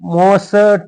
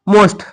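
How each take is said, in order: First: A vowel is inserted between the s and t. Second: The s and t are joined without a vowel. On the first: The speaker calls it wrong. "मोसट असं म्हणायचंच नाही" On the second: The speaker calls it right. "स्ट हे झालं ब्लेलेट जोराक्षर"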